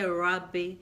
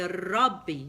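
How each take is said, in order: First: The R is a soft, untrilled English-style R. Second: The R is trilled with the tongue tip. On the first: The speaker calls it wrong. "It's not like the English rabbi. You don't say rabbi" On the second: The speaker calls it right. "you say rabbi. You have to bring it out"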